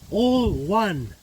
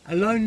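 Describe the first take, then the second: First: The first word is split into two words. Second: The first word is said as one word. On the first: Everything is united. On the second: Being by oneself.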